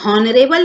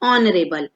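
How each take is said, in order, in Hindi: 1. शब्द की शुरुआत में साफ़ सुनाई देने वाली h ध्वनि है। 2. शब्द सीधे एक स्वर ध्वनि से शुरू होता है। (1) "तो हम हॉनरेबल नहीं पढ़ेंगे" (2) "इसको क्या पढ़ेंगे, ऑनरेबल"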